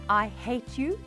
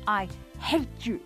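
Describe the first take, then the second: First: It is said calmly, without strong emotion. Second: It is said angrily, with stress on hate.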